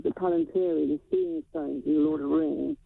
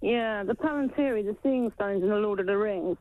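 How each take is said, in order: First: Muffled, as if through a hand; speaking with a hand over the mouth. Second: Said in the usual way. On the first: Real, not acted. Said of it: "I think you're muffled". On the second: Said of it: "Yeah, that's better".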